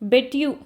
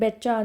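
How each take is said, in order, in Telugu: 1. ఈ రెండు పదాలు విడివిడిగా, పూర్తిగా పలుకుతారు. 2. ఈ రెండు పదాలు కలిసి ఒకే వేగవంతమైన పదంగా మారతాయి.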